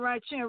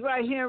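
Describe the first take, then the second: First: The word here begins with a ch sound. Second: The word here begins with an h sound.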